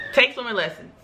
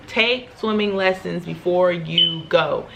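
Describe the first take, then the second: First: Said in the usual way. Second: "Take" leaned on, each word spaced out slowly; slow, weighty "Take swimming lessons"; slow emphatic advice. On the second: Shown as a demonstration. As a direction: drive the advice home word by word.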